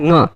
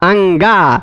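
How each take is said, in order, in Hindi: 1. यह एक नासिक्य अक्षर है, nga। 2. यह दो अक्षरों में बोला जाता है, a-nga। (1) "कंठ और नासिका से मिलकर उच्चारण करना है" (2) "कुछ कुछ लोग क्या बोलते हैं"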